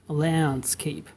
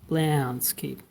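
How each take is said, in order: First: The first vowel is a spread, smiling 'ae' sound. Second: The first vowel is a spread, smiling 'ae' sound.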